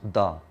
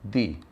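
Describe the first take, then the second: First: The vowel is short and weak, like uh. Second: The vowel is long and clear, like ee. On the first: It is the form used before a consonant sound. "if it comes before a consonant sound, it is pronounced as the" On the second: It is the form used before a vowel sound. "if it precedes or comes before a vowel sound, it would be pronounced as the"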